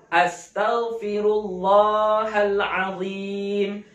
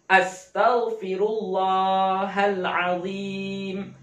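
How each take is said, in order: Both takes have the same delivery.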